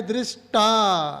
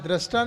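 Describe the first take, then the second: First: दृष्टा slowly as "drish-taa", starting with "dri"; correct pronunciation. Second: दृष्टा said with "dra" for "dri"; mispronunciation demo. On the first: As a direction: stretch दृष्टा with a clear "dri" and long final "aa". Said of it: "डीआरआई है ना?". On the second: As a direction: show the wrong reading, "drasta" for दृष्टा. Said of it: "दृष्टा नहीं है". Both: Shown as a demonstration.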